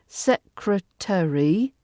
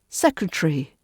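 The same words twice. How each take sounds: First: Every syllable is pronounced in full. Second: A middle vowel is dropped, making a T R cluster.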